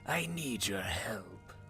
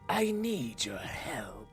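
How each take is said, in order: First: The voice is breathy and whispery. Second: The voice is plain, without whisper or throatiness. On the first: The speaker calls it right. "the weird whispery thing" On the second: The speaker calls it wrong. "That doesn't sound quite right"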